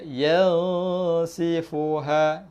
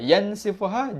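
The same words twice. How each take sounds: First: The n sound is hidden in a nasal hum. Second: The n sound is pronounced clearly and fully. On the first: The speaker calls it right. "Sebunyi dia yansifuha" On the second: The speaker calls it wrong. "Yansifuha jelas"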